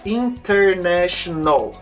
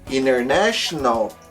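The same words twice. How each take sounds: First: The T after the N is pronounced. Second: The T after the N is dropped. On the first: The speaker calls it wrong. "a gente não fala" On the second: The speaker calls it right. "esse T ele vai sumir"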